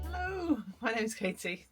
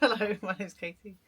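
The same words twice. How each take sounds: First: It is said in a very cheerful tone. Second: It is said in a calmer, toned-down way.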